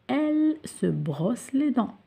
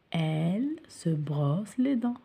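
First: Slow model sentence. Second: Whispered repeat. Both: Shown as a demonstration.

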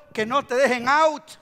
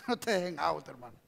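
First: Loud, punchy warning; emphatic exhortation. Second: Low, soft aside; quiet warning. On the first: Preacher has congregation warn each other, emphatic. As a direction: urge it out to the crowd. Exhortation, then repeated softly. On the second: Preacher to a brother, quiet warning. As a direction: drop it down to a confidential warning. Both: Real, not acted.

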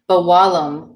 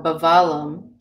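First: "Bawalam" with a w sound in the middle; dialect pronunciation. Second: "Bawalam" with a v sound in the middle; other dialect pronunciation. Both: Shown as a demonstration. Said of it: "depending on your dialect".

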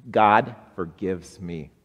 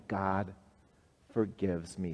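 First: Congregation response. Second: Soft model line. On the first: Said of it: "Say that with me". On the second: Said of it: "tell that good news". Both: Shown as a demonstration.

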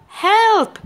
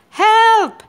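First: Second high, loud cry for help; shouting for help. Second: High, loud cry for help; shouting for help. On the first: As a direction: call out again, high and loud. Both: A narrator's reading. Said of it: "Cat was shouting".

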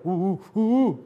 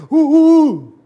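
First: A bit louder, higher grunts; mild grunts. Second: Very high, very loud shout; shouted grunts. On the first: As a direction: grunt it out plainly. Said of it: "si yo te digo". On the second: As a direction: yell it with full force. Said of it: "a que diga". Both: Shown as a demonstration. Teacher contrasts two ways of saying the same grunt.

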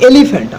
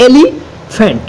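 First: Said in the usual way. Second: elephant broken as এলি, pause, ফ্যান্ট; split in two. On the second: Shown as a demonstration. Teacher dividing a word for students, elephant in two parts. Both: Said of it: "যে এটাকে ভেঙে ভাগ করি".

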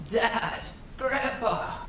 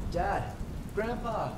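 First: Very high, drawn mimicking cry; eerie echoed call. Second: High-pitched, distant-sounding yell; calling out. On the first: Unseen thing echoing the hunter's call, eerie high mimicry. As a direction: mimic a lost hunter's yell, higher and not quite human. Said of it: "echoed back to me". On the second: Lost hunter to his dad and grandpa, high distant yell. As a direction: call for them from far off, high but held back in volume. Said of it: "I yell out". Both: A narrator's reading.

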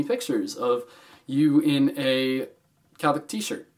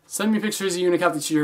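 First: Halting, slow, with awkward gaps; slow with pauses. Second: Fast, smooth, no pauses; quick rephrase. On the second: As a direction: rush through it to fix it. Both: Shown as a demonstration. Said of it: "That coulda sounded really weird".

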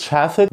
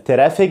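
First: "traffic" as "chraffic"; correct American TR. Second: "traffic" as "te-raffic"; wrong TR pronunciation. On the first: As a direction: say "traffic" with sh between t and r. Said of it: "بقول traffic". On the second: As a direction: say "traffic" with a separate t and r. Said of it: "مش بقول traffic". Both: Shown as a demonstration.

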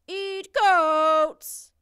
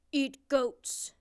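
First: Huge, high, drawn-out monster bellow; monster holler. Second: Loud, blunt monster voice. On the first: Big blue monster insists on its meal, hollering. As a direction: holler it like an enraged giant beast. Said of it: "hollered the big blue monster". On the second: Big blue monster answers the princess, loud monster demand. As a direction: demand it like a big hungry beast. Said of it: "said the big blue monster". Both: A narrator's reading.

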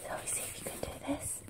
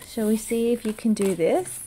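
First: Very soft, fast whisper; whispered question. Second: Said in the usual way. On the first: Real, not acted. Parent asking toddler to try something new, whispering. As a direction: repeat it under the breath, barely audible.

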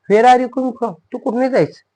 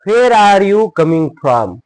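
First: Quick, high-pitched questioning; acted question. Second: Loud, high, drawn-out words; slow model reading. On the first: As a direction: call it out as to a running child. Acted question to a running child. (उंच स्वरात पटकन विचारणे) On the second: Shown as a demonstration. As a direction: project each word slowly to learners. New sentence read out slowly first. (सावकाश, मोठ्या आणि उंच आवाजात)

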